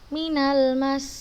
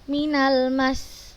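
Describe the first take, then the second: First: The final consonant flows on without being pressed. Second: The final doubled consonant is pressed and held. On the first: The speaker calls it wrong. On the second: The speaker calls it right.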